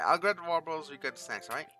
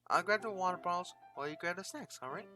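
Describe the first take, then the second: First: It is said in a different character voice. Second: It is said in the girl character's voice.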